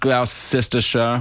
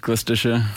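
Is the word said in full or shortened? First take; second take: full; shortened. First: The word is said in full, as written. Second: The word is shortened, with some letters not said. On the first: The speaker calls it wrong. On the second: The speaker calls it right.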